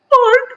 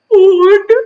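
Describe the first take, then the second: First: It is said in a very high-pitched voice. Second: It is said in a lower voice.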